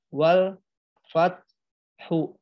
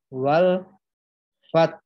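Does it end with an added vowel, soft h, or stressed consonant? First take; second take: added vowel; stressed consonant. First: A full vowel is added after the ending. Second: A stressed high consonant, then a low h. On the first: The speaker calls it wrong. "bukan dibaca wal fat hu" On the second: The speaker calls it right. "taknya ditekan tinggi, haknya diikuti suara hak sukun dengan nada yang rendah"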